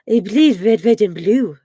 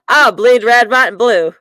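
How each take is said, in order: First: It is said in a French accent. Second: It is said in an American accent.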